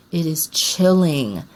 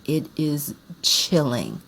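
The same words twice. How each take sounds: First: "chilling" leaned on, slow and a bit louder; emphatic repeat. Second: Slow and hushed. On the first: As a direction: land hard on "chilling". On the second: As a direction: let it sink in slowly. Savoring a movie scene. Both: Real, not acted.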